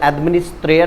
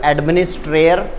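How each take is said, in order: First: The word is pronounced with Latin-style sounds. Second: The word is pronounced with English-style sounds. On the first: "Latin में इसको बोलते हैं तो" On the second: "अंग्रेजी में आप बोलोगे तो"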